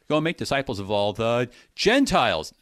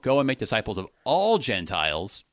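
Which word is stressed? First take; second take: Gentiles; all. First: The stress is on the word Gentiles. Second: The stress is on the word all.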